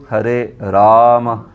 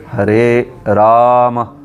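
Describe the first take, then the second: No difference in how they are said.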